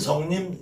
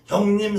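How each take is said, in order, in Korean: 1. "형님"은 s 소리로 시작해요. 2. "형님"은 h 소리로 시작해요. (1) "성님 그러는 사람들 많죠" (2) "형님 안 그러고"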